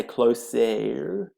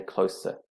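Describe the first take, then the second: First: "closer" ending in an open "eh" sound, closer-EH; wrong closer. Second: Said in the usual way. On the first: Shown as a demonstration. Teacher showing pupils the wrong way to say closer. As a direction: say "closer" with the last syllable as a clear "eh", not "er". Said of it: "We do not say". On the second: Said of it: "We say".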